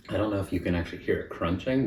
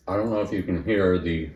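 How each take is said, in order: First: Said in the usual way. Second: Talking through a mouthful of pancake; words round a bite of food; mouth full. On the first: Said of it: "pardon me, I'm talking with food in my mouth". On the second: Real, not acted. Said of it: "I'm talking with food in my mouth".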